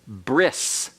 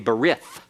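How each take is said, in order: First: The word ends with an s sound. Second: The word ends with a th sound. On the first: This is the modern Hebrew pronunciation. "modern Hebrew uh, pronunciation is bris" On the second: This is an English-style pronunciation. "That's an anglicized pronunciation that is incorrect Hebrew"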